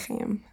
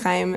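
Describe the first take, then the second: First: The name is said with an ordinary English pronunciation. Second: The name is said with a Hebrew pronunciation. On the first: "I think people say Chaim" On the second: "I say Chaim like in Hebrew"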